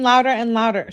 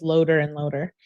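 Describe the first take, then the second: First: Said in the usual way. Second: "Loader" said with a long O, as in load; misspelling read literally. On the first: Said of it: "Loader and loader". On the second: Shown as a demonstration. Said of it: "She does not know how to spell".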